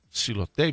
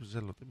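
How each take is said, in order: First: The word begins with the syllable 'si'. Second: The word begins with the syllable 'ze'. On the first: "εγώ το λέω σιλοτέιπ"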